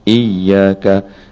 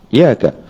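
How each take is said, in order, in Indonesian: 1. Bunyi y ditahan, dobel. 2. Bunyi y pendek, tunggal. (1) "biar ada sikit dia punya iyyaka" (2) "jangan terus iyyaka"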